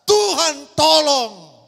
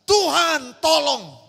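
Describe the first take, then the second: First: Slow, much louder desperate yell; the crowd screams for God's help; loud shout. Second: Slow, drawn-out cry for help; a frightened dreamer's slow plea; desperate plea. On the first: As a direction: bellow it like a crowd in terror. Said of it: "berteriak dengan sangat keras berkata". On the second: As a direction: beg God slowly for rescue. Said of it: "saya hanya berkata". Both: Retold or imitated.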